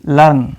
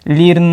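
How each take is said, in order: First: The vowel sounds like 'er' before the r. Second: The vowel sounds like 'ee' before the r. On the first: The speaker calls it right. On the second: The speaker calls it wrong.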